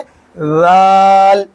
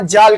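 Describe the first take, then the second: First: It starts with a soft th sound. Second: It starts with a buzzing z sound. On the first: The speaker calls it right. "बल्कि कहेंगे राल" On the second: The speaker calls it wrong. "इसको जाल नहीं कहेंगे"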